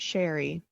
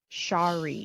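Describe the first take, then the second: First: The name sounds like the word sherry. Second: The name sounds different from the word sherry. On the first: The speaker calls it wrong. "not Sherry" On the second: The speaker calls it right.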